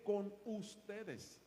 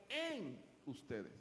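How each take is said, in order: First: "con" set apart and stressed before "ustedes". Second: "en" drawn out with a big pitch swell; stress on EN. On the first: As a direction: lean on "con" to set up a contrast. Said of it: "No tan solo con, sino en". (énfasis en "con") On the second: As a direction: stretch "en" as the key word, then drop on "ustedes". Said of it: "sino en". (énfasis alargado en "en") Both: Shown as a demonstration.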